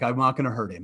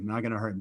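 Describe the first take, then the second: First: Said in the usual way. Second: Softer, muttered repeat of I'm not gonna hurt him; quiet self-reassurance. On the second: Retold or imitated. Teacher calming himself, softer repeat. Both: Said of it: "so you're like".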